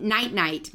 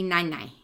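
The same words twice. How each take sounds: First: Said in the usual way. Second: "nai nai" with the final t dropped; toddler simplification. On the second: Shown as a demonstration. Showing how toddlers say night night, "nai nai" without t's. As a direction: leave both words open-ended: "nai nai". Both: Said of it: "might just be nai nai".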